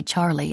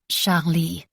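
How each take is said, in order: First: Said in the usual way. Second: Charlie with emphasis on both syllables, French-style; both syllables stressed. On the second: Shown as a demonstration. Narrator showing Rose's French way of saying Charlie. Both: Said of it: "Emphasis on both syllables".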